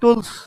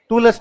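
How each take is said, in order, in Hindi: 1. अंतिम l-s समूह में कोई अतिरिक्त स्वर नहीं है। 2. अंतिम s से पहले एक अतिरिक्त स्वर आता है। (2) "टूलस नहीं"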